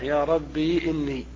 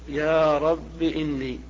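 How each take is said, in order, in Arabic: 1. تنتهي الكلمة بالياء الطويلة ī. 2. تنتهي الكلمة بالكسرة القصيرة i. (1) "إثبات الياء ساكنة" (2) "الحذف مع الكسر"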